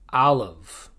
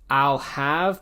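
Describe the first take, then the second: First: The word have is reduced and joined on. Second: The word have is said in full.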